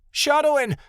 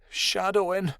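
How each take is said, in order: First: High, loud cry after someone. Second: Higher, plaintive moan of a name. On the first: Jade cries after her brother as he runs, high and loud. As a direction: yell the name at a high pitch. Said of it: "Jade cried". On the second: Jade waits anxiously for her lost brother, moaning his name. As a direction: moan the name forlornly, without shouting. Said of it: "Jade moaned". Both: A narrator's reading.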